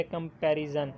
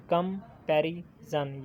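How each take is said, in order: First: Said in the usual way. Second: comparison said slowly, syllable by syllable; slow syllable count. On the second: Shown as a demonstration. Teacher counting syllables for students, slow and spelled out. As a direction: stretch out comparison so each syllable can be counted. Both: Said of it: "ये भी three हैं".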